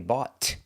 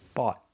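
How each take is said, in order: First: The final T is released with air. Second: The final T is held without release. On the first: The speaker calls it wrong. "We don't say bought" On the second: The speaker calls it right. "We stop the air"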